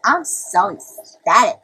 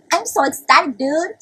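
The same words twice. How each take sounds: First: Slow, loud, drawn-out declaration of delight; exaggerated slow excitement; mock ecstasy. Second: High, loud burst of mock excitement; squeal-pitched, over-the-top delight; hammed-up ecstasy. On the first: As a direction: stretch out ECSTATIC, hammed-up. Hamming up how happy they are. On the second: Repeats the ecstatic claim, higher.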